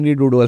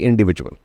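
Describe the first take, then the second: First: The middle sounds like 'doodle'. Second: The middle sounds like 'vidual'. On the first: The speaker calls it wrong. "मैं इंडी डूडल बोलता" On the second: The speaker calls it right. "कहती इंडिविजुअल"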